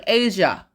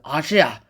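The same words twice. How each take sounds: First: Said in the usual way. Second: "Asia" said as AH-shee-ah; quirky pronunciation. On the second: Shown as a demonstration. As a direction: say "Asia" with a broad AH and a "shee" in the middle. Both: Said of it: "as I like to pronounce it".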